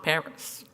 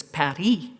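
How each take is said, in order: First: "Paris" said the English way, PAR-is, slowly; English pronunciation. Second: "Paris" said the French way, pah-REE, no final s; French pronunciation. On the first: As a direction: drawl out "Paris" in plain English, stress first. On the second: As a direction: give "Paris" the French sound, stress at the end. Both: Shown as a demonstration. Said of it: "you were immediately corrected".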